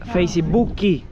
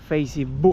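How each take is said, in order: First: It is said with a Brazilian Portuguese accent. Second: It is said with a European Portuguese accent. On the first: "en Brasil dicen" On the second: "acá es diferente la pronuncia"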